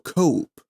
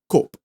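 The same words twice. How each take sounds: First: The vowel glides between two sounds. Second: The vowel is one steady sound. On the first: The speaker calls it right. "But no, we go cope" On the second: The speaker calls it wrong. "If we were to just solidify one, it would be cope"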